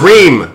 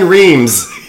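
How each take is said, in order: First: The name ends without an s sound. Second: The name ends with an s sound. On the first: The speaker calls it right. "It's Reem" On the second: The speaker calls it wrong. "it's not Diane Reems"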